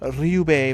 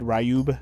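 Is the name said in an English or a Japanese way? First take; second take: Japanese; English. First: The name is said with Japanese-style vowels. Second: The name is said with anglicized English vowels. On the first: This follows the original pronunciation. The speaker calls it right. "Pretty sure it's supposed to be Ryube Village" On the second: This is how it was said in childhood. The speaker calls it wrong. "I always used to call it Ryube Village when I was a kid"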